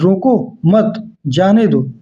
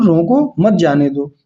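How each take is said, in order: First: There is a pause after मत. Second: There is a pause after रोको.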